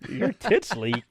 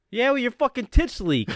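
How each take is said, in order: First: Incredulous echo, breaking into laughter; baffled repeat. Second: High, raised-voice retort; mock-angry shout back; defiant comeback. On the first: Retold or imitated. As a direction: imitate an apprentice puzzling over the insult. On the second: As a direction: imitate a journeyman firing back an insult. Journeyman shouts back absurd comeback.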